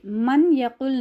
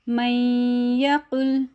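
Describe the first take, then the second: First: The n sound is pronounced clearly before y. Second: The n merges into y with a held nasal sound. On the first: The speaker calls it wrong. "अगर हम कहेंगे तो नून की आवाज़ ज़ाहिर हो रही है" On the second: The speaker calls it right. "मुदगम करना है"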